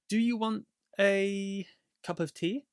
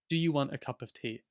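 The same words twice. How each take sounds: First: The word 'a' has a full 'ay' vowel. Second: The word 'a' is reduced to a weak 'uh'. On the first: The speaker is thinking while speaking. "if you're thinking about it, then you can say a" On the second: The speaker knows what they are going to say. "if you know what you're going to say, we would just say"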